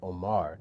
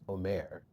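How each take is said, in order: First: The second vowel is a plain vowel. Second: The second vowel is an umlaut vowel. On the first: This is the chosen stage pronunciation. "That's not what I'm going for" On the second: This is the technically correct reading. "technically, because of the umlaut, it's Omer"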